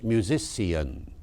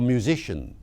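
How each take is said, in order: First: "musician" slowly as mu-zis-see-un; OP -cian ending. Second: Said in the usual way. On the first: Shown as a demonstration. Lecturer gives another old example, "musician" said mu-zis-see-un. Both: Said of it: "pronounced musician".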